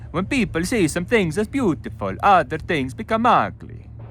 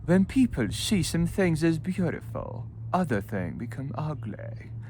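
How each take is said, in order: First: It is read in an Italian accent. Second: It is read in a posh English accent. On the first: "You can do Italian" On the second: "Or with posh"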